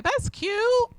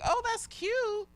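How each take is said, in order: First: High-pitched praise through a frown; frowny-faced compliment. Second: Soft, very high, drawn-out fake approval; high, hushed, doubtful sweetness; insincere compliment. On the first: Retold or imitated. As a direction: imitate a disapproving onlooker's fake compliment. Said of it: "with a frowny face". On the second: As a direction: imitate onlookers politely faking a compliment. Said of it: "but, like, with a frowny face".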